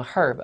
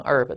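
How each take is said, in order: First: "herb" with a sounded H; H pronounced. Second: "herb" without its H; silent H. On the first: Teacher gives class the first reading, "herb" with H sounded. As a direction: start "herb" on a breathed H, as in "her". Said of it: "第一个你可以读成". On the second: Teacher gives class the second reading, "herb" with silent H. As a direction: say "herb" as "erb", opening straight on the vowel. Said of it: "第二个读音你可以读成herb都行啊". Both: Shown as a demonstration.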